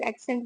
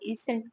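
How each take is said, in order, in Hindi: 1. पहला स्वर एक खुली 'a' ध्वनि है। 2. पहला स्वर ऊपर उठा हुआ है, जैसे 'isent'। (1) "हम लोग एक्सेंट बोलते हैं" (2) "वो इसेंट बोलते हैं"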